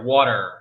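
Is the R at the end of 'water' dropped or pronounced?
pronounced. The final R sound is clearly pronounced. "we also like the letter R much more than the British and the the Aussies... it's always there"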